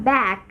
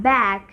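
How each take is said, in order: The two takes are said the same way.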